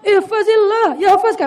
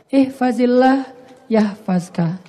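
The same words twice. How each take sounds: First: It is spoken in a harsh, stern tone. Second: It is spoken softly and gently. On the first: It sounds like a severe warning. The speaker calls it wrong. "Berubah kan nadanya kan ya?" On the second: It is a calm, caring piece of advice. The speaker calls it right. "Nabi ngomongnya pelan"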